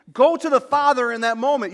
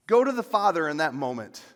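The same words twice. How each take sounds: First: "Go" hit higher and louder; preached loud. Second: Said in the usual way. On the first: Shown as a demonstration. Pastor urging the congregation, loud high exhortation. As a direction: lift "Go to the Father" into a loud, high cry.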